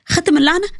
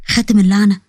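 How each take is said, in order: First: High, rising shocked echo; alarmed disbelief. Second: Low, ominous pronouncement; strange ominous voice. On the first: Woman echoes friend's curse warning, alarmed high voice. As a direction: echo it higher, as a startled question. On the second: Friend fakes a curse to scare her, low ominous voice. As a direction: intone it low like a dark warning. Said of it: "وقالت بصوت غريب". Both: A narrator's reading.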